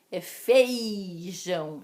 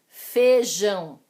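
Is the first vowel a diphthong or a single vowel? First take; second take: diphthong; single vowel. First: The first syllable has a gliding diphthong. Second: The first syllable has a single plain vowel. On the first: The speaker calls it right. "existe o ditongo" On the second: The speaker calls it wrong. "falamos demais errado"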